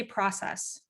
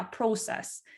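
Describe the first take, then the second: First: "process" with an open ah, PRAH-sess; demonstrated pronunciation. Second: "process" with a long O, PROH-sess; changed O. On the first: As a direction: say "process" with a short, open first vowel. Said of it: "like, say, process". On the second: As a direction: round the first vowel of "process" into "oh". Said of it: "the O is changed". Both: Shown as a demonstration.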